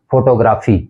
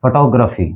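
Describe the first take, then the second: First: फोटोग्राफी with a full "fo" and long "graa"; फोटोग्राफी with full O and long AA vowels; common mispronunciation. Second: फोटोग्राफी as fuh-TOG-ruh-fee; फोटोग्राफी with short, weak "fuh" and "gruh"; correct pronunciation. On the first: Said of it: "ये भी गलत उच्चारण है". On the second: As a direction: reduce the first vowel of फोटोग्राफी to "fuh". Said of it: "इसका जो actual pronunciation है". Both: Shown as a demonstration.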